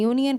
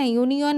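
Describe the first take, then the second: First: Said in the usual way. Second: यूनियन ending in a full o, "yu-ni-on"; wrong spelling pronunciation. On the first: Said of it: "यूनियन पढ़ते हैं". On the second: Shown as a demonstration. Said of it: "यूनियन नहीं".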